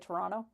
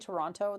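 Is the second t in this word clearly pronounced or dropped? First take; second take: dropped; pronounced. First: The second t is dropped. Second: The second t is clearly pronounced. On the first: "they say Toronto" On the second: "just don't say Toronto"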